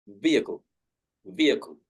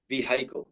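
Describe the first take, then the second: First: Vehicle said VEE-uh-kul, no H; the right take, vehicle with a silent H. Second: Vehicle with the H said, vee-HI-kul; the wrong take, vehicle with a spoken H; sounded H in vehicle. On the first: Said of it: "the letter H is not pronounced". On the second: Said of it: "it's like vehicle". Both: Shown as a demonstration.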